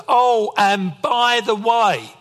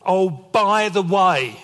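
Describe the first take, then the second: First: Slow, drawn-out and louder, higher warning; dad's ominous tone. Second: Slow, louder drawn-out warning; dad's ominous tone. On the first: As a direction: stretch "Oh, and by the way" like a dad about to lecture. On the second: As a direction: lean on "by" like a stern father. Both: Retold or imitated. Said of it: "I've heard that phrase with that tone".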